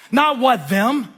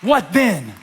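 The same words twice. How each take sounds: First: "what them" said slowly, high and mocking; mock wrong version. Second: "What then?" with then clearly said; stress on then. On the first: Pastor mocking the church's mistake, slow and high. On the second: Pastor drilling the church on the key phrase, stressed. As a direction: land on the word "then" in "What then?". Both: Shown as a demonstration.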